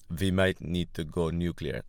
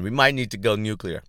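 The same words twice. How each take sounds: First: Bad Russian accent, w turned to v; hammy mock Russian accent. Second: Said in the usual way. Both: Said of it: "my Russian accent's always been bad".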